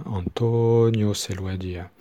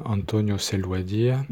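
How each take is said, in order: First: "Antonio" with the O stretched out; lengthened O. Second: Said in the usual way. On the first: Shown as a demonstration. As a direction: hold the O in "Antonio" longer. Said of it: "il prolonge". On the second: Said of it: "ça fait six syllabes".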